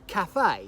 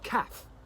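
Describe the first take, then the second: First: The word is said the French way, in full. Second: The word is said the English way, shortened. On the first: This is the original form of the word. "a French word" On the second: The word has been adapted to English over time. "it's become kind of anglicised"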